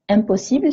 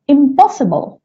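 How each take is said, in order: First: The word has a French pronunciation. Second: The word has an English pronunciation.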